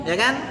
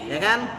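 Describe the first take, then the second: The two takes are said the same way.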